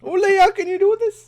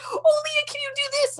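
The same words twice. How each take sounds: First: High, loud mimicked Newfie; teasing high-pitched Newfie echo; Newfie accent. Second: Mom's high-pitched Newfie voice; squeaky-high mock Newfie request; Newfie accent. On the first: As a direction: parrot the mom in an exaggerated high Newfoundland accent. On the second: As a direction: imitate mom in a high, comic Newfoundland accent. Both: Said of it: "That was a great Newfie accent".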